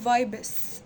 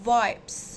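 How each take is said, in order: First: The ending adds a vowel, making two syllables. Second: The ending has no added vowel, one syllable. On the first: The speaker calls it wrong. "مش بتتقال فايبس" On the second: The speaker calls it right. "هي اسمها فايبس"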